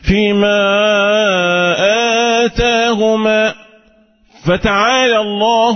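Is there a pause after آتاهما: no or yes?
yes. There is a pause after آتاهما. Their speech ends and God's words begin. The speaker calls it right. "ده وقف تم"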